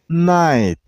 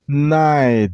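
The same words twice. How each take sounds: First: The t is pronounced as a crisp t. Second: The t is softened to a d-like sound. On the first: The speaker calls it wrong. "don't make T sound" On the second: The speaker calls it right. "The T becomes D sound"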